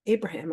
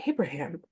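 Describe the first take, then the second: First: ABRAHAM stated with a falling tune; plain statement. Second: ABRAHAM echoed with a rising, questioning tune. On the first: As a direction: state "Abraham" as an answer, pitch dropping at the end. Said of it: "and he says". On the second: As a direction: repeat "Abraham" as a puzzled question, rising at the end. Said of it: "And I go". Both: Retold or imitated.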